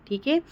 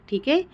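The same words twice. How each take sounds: The two takes are said the same way.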